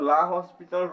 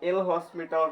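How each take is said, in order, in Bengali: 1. এটা la hos দিয়ে শুরু, s এর উচ্চারণ সহ। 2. এটা el hos দিয়ে শুরু, s এর উচ্চারণ সহ। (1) "অনেকজনে লা হসপিটাল রুলস ... বলে" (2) "বাকি যে যেটাই বলুক না কেন ওটা ভুল"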